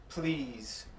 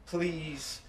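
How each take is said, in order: Both takes have the same delivery.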